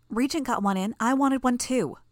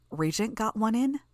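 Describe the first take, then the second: First: Put-on lightly raised, eager girl's voice; a hint of a gleeful young girl; mildly pleased, higher voice. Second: Surprised question. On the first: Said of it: "she said". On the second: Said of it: "I asked". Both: A narrator's reading.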